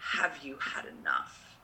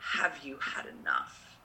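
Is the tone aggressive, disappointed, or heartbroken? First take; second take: heartbroken; heartbroken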